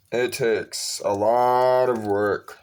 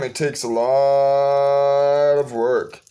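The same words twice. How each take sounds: First: Said in the usual way. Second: "It takes a lot of work" drawn out very slowly; slow, emphatic. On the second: Acted. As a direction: stretch every word to let it sink in. Repeats the point for weight.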